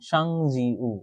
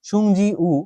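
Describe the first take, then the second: First: The first syllable has an 'ah' vowel. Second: The first syllable has an 'oo' vowel. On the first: The speaker calls it right. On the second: The speaker calls it wrong.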